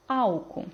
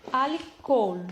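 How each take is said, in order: First: Álcool stressed on ÁL; Portuguese first-syllable stress. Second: Alcohol stressed on the last syllable, COHOL; slow Spanish Alcohol with weight at the end; Spanish final stress. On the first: Teacher giving the Portuguese translation, álcool stressed on ÁL. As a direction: say álcool with weight up front, ending light. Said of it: "português". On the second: Teacher reading the Spanish example to students, Alcohol stressed on its end. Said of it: "Aqui eu tenho em espanhol". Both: Shown as a demonstration.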